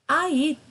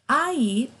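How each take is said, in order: The two takes are said the same way.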